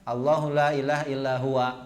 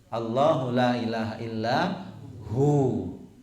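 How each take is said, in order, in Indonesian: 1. Kata terakhir diakhiri dengan suku kata 'wa' penuh. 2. Kata terakhir dipotong pendek menjadi 'hu'. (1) "jangan dibaca kalau waqaf huwanya ... salah" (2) "Kalau waqaf kita bacanya hu"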